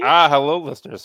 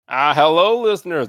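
First: It is said with little energy. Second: It is said with more energy.

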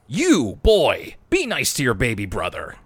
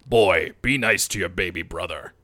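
First: It is said in a normal voice. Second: It is said in a deepened Kratos-like voice.

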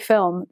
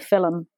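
First: The word is said in a standard accent. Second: The word is said in a Liverpool accent. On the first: "They don't say film" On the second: "they say film"

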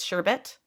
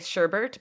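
First: The second syllable has no r sound. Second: The second syllable has an extra r sound. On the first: This is the proper form of the word. The speaker calls it right. "but it's sherbet" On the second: This is how people commonly say it. The speaker calls it wrong. "We say sherbert"

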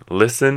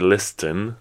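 First: The T in the middle is silent. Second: The T in the middle is pronounced. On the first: The speaker calls it right. "you don't pronounce the T at all" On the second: The speaker calls it wrong. "you don't say listen"

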